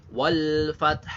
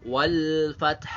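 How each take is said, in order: No difference in how they are said.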